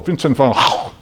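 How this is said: The name is said with Dutch pronunciation. "his Dutch pronunciation of the Dutch artist"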